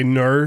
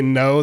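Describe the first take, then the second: First: "ner" with an r sound on the end; mock-Australian "ner" for no. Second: Said in the usual way. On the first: Shown as a demonstration. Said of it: "they say "ner". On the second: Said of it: "when they say no".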